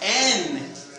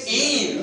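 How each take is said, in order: First: The vowel sounds like the vowel in 'end'. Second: The vowel sounds like the vowel in 'in'. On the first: The speaker calls it wrong. "not n" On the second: The speaker calls it right. "you say in"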